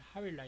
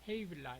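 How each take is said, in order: First: The name is said with a w sound. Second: The name is said with a v sound. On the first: This is the Middle Eastern way of saying it. "중동식 발음은 하윌라 이렇게 발음이 되죠" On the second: This is the English way of saying it. "영어식은 헤이빌라 이렇게"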